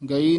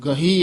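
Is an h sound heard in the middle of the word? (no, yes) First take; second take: no; yes. First: The word is said without an h sound. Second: The word is said with an h sound. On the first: The speaker calls it wrong. "ਗਈ ਨਹੀਂ" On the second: The speaker calls it right. "ਗਹੀ ਹੈ"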